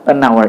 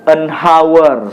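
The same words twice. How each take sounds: First: The h at the start of hour is silent. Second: The h at the start of hour is pronounced. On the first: The speaker calls it right. "Tapi dibacanya adalah an hour. ... H itu dihilangkan" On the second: The speaker calls it wrong. "Jangan dibaca uh, an hour, salah"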